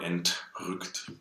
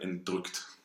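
First: The T sound is crisp and clearly aspirated. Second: The T sound is soft or nearly missing. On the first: The speaker calls it right. "So you gotta go for entrückt" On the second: The speaker calls it wrong. "Otherwise, it sounds a little bit like entrückt. That's the danger"

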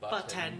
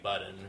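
First: The t sound is clearly and carefully pronounced. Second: The t sound is swallowed into a glottal catch. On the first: "I have to over-enunciate when I say button" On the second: "Or else it sounds like button, because that's how I talk"

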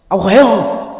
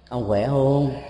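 First: It sounds like a harsh scolding. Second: It sounds weightier, with deeper concern.

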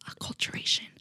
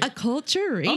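First: It is said at normal volume. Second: It is said louder, projected.

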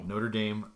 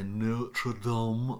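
First: It is said with an American pronunciation. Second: It is said with a French pronunciation.

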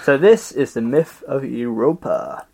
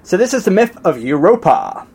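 First: It is said with low energy. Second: It is said with high energy.

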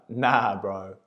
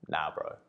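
First: It is said too loudly. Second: It is said at normal, quiet volume.

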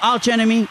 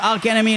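First: The first word ends with a ch sound. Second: The first word ends with a hard k sound. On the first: "מקודם קראתי להם ארץ' אנמי" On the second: "ולמה אני אומר ארק אנמי"

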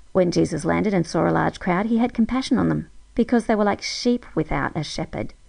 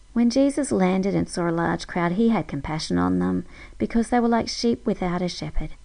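Both takes have the same delivery.

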